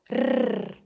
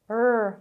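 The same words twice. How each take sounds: First: The R is rolled with a tongue trill. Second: The R is smooth, the tongue not touching. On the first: "compared to a rolled R sound" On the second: "R is called an approximant consonant"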